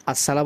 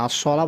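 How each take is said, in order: First: আসসালা with light s and open a; wrong sin. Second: আসসালা with thick s, rounded to as-sola; heavy rounded আসসালা; correct sad. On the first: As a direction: say আসসালা thin, plain s. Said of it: "আসসালা বলা যাবে না". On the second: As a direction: fill the mouth on the s of আসসালা. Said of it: "আসসালা বলতে হবে". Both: Shown as a demonstration.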